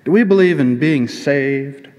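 It is said with a twang.

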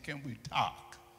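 It is spoken in an imitated African accent. "The Africans say"

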